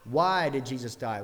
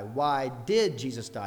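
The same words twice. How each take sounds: First: Strong leading "Why" in the question; stress on Why. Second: "did" drawn out and punched; stress on did. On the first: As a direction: punch "Why", then let the rest fall. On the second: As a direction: lean slowly on "did". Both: Shown as a demonstration. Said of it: "different emphasis on each of the words".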